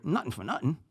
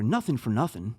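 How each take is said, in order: First: "nothing" said as nuttin, th dropped, rising at the end. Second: "nothing" said with a clear th. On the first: Podcaster demoing another area's version. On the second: Podcaster demoing one Jersey area's phrase. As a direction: say "nothing" with a full th sound. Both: Shown as a demonstration. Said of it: "you'll hear".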